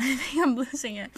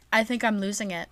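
First: Laughing, slightly higher pitch; losing my mind. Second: Said in the usual way. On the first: Real, not acted. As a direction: giggle through it like you're cracking up. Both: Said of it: "That I sound so deranged right now".

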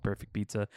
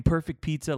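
First: Said in the usual way. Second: Higher-pitched mock scorn; imitated ripping on it. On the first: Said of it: "that was one I just watched". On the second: Quoting reviewer on a stupid pizza place name, mock scorn. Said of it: "He was ripping on the name".

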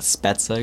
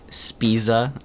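First: Spezza said as "SPET-sa"; correct pronunciation. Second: Spiza said as "SPEE-za"; game's mispronunciation. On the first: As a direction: say Spezza with a short "e" and a "ts". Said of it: "not Spezza". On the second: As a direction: say Spiza with a long "ee" and a buzzed z. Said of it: "And you say, like". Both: Shown as a demonstration.

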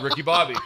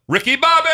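First: Said in the usual way. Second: Yell. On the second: Retold or imitated. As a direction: holler to a neighbor's dog from the car. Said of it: "I'll yell".

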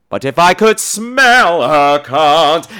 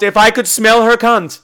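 First: Slow, swelling mock-operatic singing; sung aria. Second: Said in the usual way. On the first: Lecter launching into his aria, slow mock-operatic singing. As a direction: sing it grandly with long held notes. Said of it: "gorgeously sung aria".

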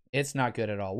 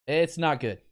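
First: Softer resigned repeat. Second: Said in the usual way. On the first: Real, not acted. Host on injured lineman, lower and softer in resignation.

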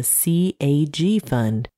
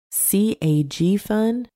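First: Said in the usual way. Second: "C A G Fund" spelled out slowly, pitched up as a question; slow, higher-pitched, querying "C A G Fund"; puzzled questioning. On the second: A narrator's reading. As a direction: puzzle over "C A G Fund", each letter drawn out higher. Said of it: "trying to ascertain the meaning".

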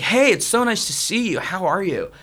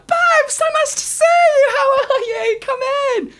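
First: Higher-pitched, effusive stranger's hello; feigned friendly greeting. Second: Very high, loud squealed welcome; fake delighted greeting. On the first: Retold or imitated. American guy greeting strangers in a queue, mock-friendly. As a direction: greet them like a long-lost friend. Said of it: "some American guy came up to us". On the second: Pretending to know him after a bribe, fake delighted squeal. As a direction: shriek a gushing hello, hammed up. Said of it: "to pretend that we know him".

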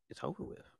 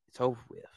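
First: Hushed, breathless whisper. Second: Said in the usual way. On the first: Real, not acted. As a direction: drop it to a whisper for emphasis. Host ends drama, repeats line.

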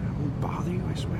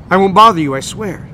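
First: Unvoiced whisper. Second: Booming loud voice; dopey cartoon bellow. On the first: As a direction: breathe the words softly. Whispered repeat of the booming line. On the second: A narrator's reading. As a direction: bellow it over traffic noise. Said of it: "he says in a voice louder than the traffic".

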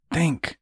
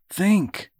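First: Higher-pitched order to himself; self-command. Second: Sharply higher, more urgent order to himself; insistent self-command. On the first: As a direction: urge yourself to focus. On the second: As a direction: push yourself hard to focus. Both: A narrator's reading. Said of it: "he commanded himself".

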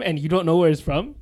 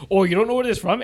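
First: Said in the usual way. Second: Teasing, sing-song mock of her question; mocking mimic. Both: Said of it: "She literally said".

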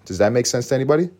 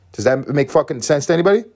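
First: Said in the usual way. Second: Louder, higher, sharply annoyed repeat; defensive. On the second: Real, not acted. Repeating the question to viewers, now defensive and louder. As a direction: snap the question out at the audience. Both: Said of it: "Sound a little defensive right now".

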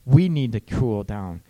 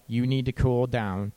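First: "We" in "We need to cool down." louder and leaned on; stress on we. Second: Plain "You need to cool down." with blame on "You"; blaming. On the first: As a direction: make "We" the focus, inclusive. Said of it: "Us or we". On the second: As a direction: point the finger with "You". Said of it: "You're coming across ... putting all the blame". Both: Shown as a demonstration.

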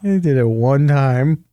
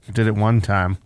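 First: "He" rising, pushed harder than the rest; stress on he. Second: "one" stressed, low and flat in "I did it one time". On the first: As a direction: lean on "He" in "He did it one time". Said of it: "Regular character". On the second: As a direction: hit "one" in a low tired voice. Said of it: "I know, Craig". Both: Real, not acted.

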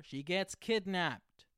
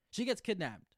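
First: Loud, slow, higher cliffhanger announcement; dramatic reveal. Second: Loud, higher repeat of the twist; excited repeat. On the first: Host revealing the season's ending to listeners, loud and slow. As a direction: drag it out like a shock ending. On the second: Host repeating the twist to listeners, loud and excited. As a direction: hammer the shock home again. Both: Real, not acted.

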